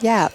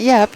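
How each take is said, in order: First: The vowel is drawn out long. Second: The vowel is short, like a regular a. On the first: The speaker calls it right. "with with two A's" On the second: The speaker calls it wrong. "Not Yap"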